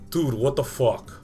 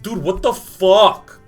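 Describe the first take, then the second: First: It is said short and neutral. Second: It is said long and drawn out.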